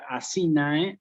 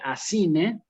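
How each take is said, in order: First: The final vowel is said like 'ai'. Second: The final vowel is said like 'e'. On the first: This is the classical Latin pronunciation. "sería en, en, en clásico" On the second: This is the ecclesiastical Latin pronunciation. "en eclesiástico"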